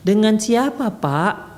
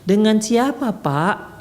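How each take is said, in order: First: It is said in a soft, lilting voice. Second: The same.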